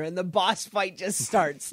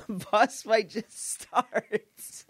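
First: Said in the usual way. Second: "The boss fight just starts." drawn out slowly, each word leaned on; slow it right down and lean on "just starts"; slow emphatic repeat. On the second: Real, not acted. To the host, repeating the mishap slow and emphatic.

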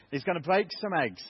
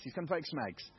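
First: Louder, firmer eggs so nobody hears legs; preacher correcting himself to the congregation, stressing eggs; eggs made clear. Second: Said in the usual way. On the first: Shown as a demonstration. Say eggs plainly and firmly, not legs. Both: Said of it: "That's eggs, not legs".

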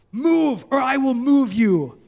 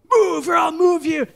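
First: Angry threat. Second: Higher, louder furious shout; angry shout. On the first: Angry stranger threatening the pastor in a garage. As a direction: make it a threat to his face. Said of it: "he's like". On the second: Enraged driver shouting at the pastor, furious shout. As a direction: yell it right in his face. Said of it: "He's so angry". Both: Retold or imitated.

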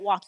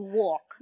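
First: Said in the usual way. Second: "walk" as New York "wawk"; deep-rounded New York "aw" in "walk"; New York accent. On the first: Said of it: "you don't walk". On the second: Shown as a demonstration. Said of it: "you walk".

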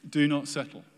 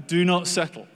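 First: Said in the usual way. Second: Louder and higher, urging hard; emphatic exhortation. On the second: Real, not acted. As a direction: call them out of settling. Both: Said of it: "preacher repeats the exhortation".

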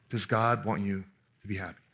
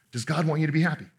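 First: Hushed, probing repeat with weight on God; soft repeated question. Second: Said in the usual way. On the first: Shown as a demonstration. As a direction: lower and softer, stress on God. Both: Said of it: "repeats the question".

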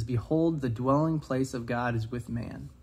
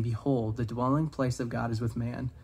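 First: Slow, weighty repeat of the key line; emphatic quote. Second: Said in the usual way. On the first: Shown as a demonstration. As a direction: lift "Behold" up, then slow right down on "the dwelling place of God is with man". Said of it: "something that really stuck out to me". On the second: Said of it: "the quote that says".

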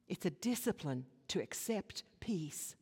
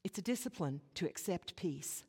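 First: Hushed, breathy whisper; whispered repeat of the line. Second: Said in the usual way. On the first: Shown as a demonstration. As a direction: lean in and whisper it.

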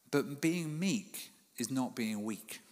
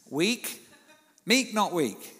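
First: Slow, weighty line with a pause before it; dramatic pause. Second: Loud, high punch on meek and weak; emphatic repeat. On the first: Preacher landing his point to the congregation, slow and weighty. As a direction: let the point land slowly. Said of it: "That's why I did the dramatic pause". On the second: Preacher repeating his key point to the congregation, loud and high. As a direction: hammer home meek not weak. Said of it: "Powerful point there". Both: Shown as a demonstration.

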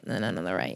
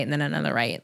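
First: Fading out. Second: Softer, lower. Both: Pretend.

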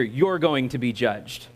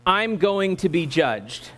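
First: Slow, lowered line with "You're" stressed. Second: Slow, deliberate line with "I'm" stressed. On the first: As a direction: lean on "You're", pointing it at the neighbor. Dictates contrasting line to repeat. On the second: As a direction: lean on "I'm", then spell it out slowly for repeating. Dictates a line to repeat. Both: Shown as a demonstration.

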